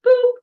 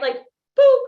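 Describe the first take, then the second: First: Said in the usual way. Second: "boop" squeaked high and loud, rising; cartoon "boop" with a bright upward pop; playful boop. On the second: Shown as a demonstration. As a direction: show the crowd a loud, high, silly "boop". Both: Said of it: "I want everybody to go like this".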